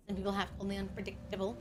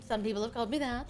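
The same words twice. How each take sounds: First: Quick hushed whisper; fast whisper. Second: Said in the usual way. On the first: Shown as a demonstration. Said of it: "repeated as a fast whisper".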